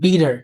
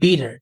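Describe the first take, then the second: Both takes have the same delivery.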